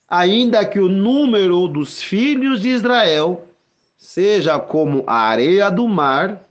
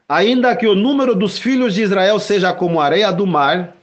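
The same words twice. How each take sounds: First: It is read at a slower pace. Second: It is read at a quicker pace.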